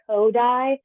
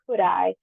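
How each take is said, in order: First: The first syllable does not sound like 'could'. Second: The first syllable sounds like 'could'. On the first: This is how many Americans say the name. The speaker calls it wrong. "A lot of Americans pronounce it" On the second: This is the proper way to say the name. The speaker calls it right. "it's pronounced Kudai, as in how could I"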